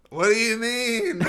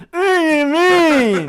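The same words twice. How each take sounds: First: High slow eerie ghost. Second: Very high slow wailing ghost; crying ghost voice. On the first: Pretend. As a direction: moan it like a ghost. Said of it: "That's my ghost voice". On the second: Shown as a demonstration. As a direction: wail it like a mangled ghost. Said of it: "maybe do something like".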